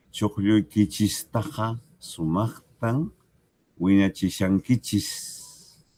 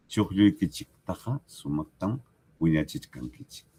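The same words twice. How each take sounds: First: Slow Chuqlluykichistaqa with -chis, wiñachishankichis drawn out; teacher reads it the way it is said in Puno, slowly; Puno pronunciation. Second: Chuqlluykichiktaqa with a hard -chik, wiñachichkankichik with chk; teacher reads it the way it is said in Huancavelica; Huancavelica pronunciation. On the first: Pronunciación de Puno. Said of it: "Si yo estoy en Puno, leeré". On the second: Pronunciación de Huancavelica. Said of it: "Si yo estoy en Huancavelica". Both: Shown as a demonstration.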